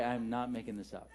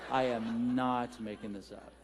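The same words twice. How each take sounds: First: Said in the usual way. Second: Slow, deliberate "I am not", each word weighted; slow insistence. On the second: Real, not acted. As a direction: stretch out "I am not" to insist it's true. Slow insistent repeat for laughs.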